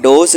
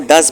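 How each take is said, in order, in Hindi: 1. स्वर 'doze' जैसा है। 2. स्वर 'buzz' जैसा है। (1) "यहाँ डोज नहीं पढ़ना" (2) "इसको डज पढ़ना है"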